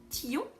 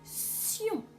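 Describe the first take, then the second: First: The syllable begins with a t sound. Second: The syllable begins with an s sound. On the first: The speaker calls it wrong. "on ne va pas lire tillon" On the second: The speaker calls it right. "mais on va lire sion"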